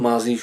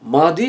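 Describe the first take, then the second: First: The middle consonant is a z-like sound. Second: The middle consonant is a d-like sound. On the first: The speaker calls it wrong. "আপনি আমাদের মুখ থেকে প্রায়ই মাজি শুনবেন, ... কিন্তু এগুলো শুদ্ধ নয়।" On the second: The speaker calls it right. "শুদ্ধ কি? মাদি"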